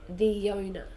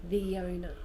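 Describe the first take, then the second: First: A small Y sound links the two words. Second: The same.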